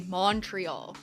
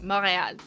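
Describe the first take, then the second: First: The T sound is pronounced in the name. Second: The T sound is dropped from the name. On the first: This is how outsiders say it. The speaker calls it wrong. "You'll never hear someone from Montreal say Montreal" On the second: This is how locals say it. The speaker calls it right. "you don't even pronounce the T"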